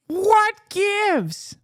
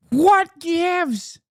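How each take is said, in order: First: Mock indignation. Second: High, drawn-out mock whine on what gives, stressed what; mock indignation. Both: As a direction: whine it up high like a pouty tweet. Mocking the tweet's question.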